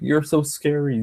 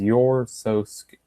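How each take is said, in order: First: Sarcastic, higher "You're so scary."; sarcastic "so scary" lifted higher; mock fear. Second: Said in the usual way. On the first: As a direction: taunt the rival by pretending to be scared. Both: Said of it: "and then Brooke was like".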